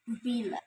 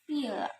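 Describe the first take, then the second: First: The word begins with a v sound. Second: The word begins with an f sound. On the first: The speaker calls it right. "the correct one is villa" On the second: The speaker calls it wrong. "The learners pronounce it like villa"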